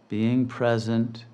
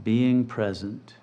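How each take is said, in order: Both takes have the same delivery.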